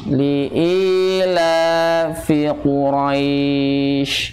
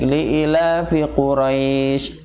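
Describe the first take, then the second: First: The vowels in li'ilafi are held long. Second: The vowels in li'ilafi are said short. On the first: The speaker calls it right. "seharusnya dibaca panjang" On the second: The speaker calls it wrong. "Kesalahan yang sering terjadi yaitu dibacanya pen pendek"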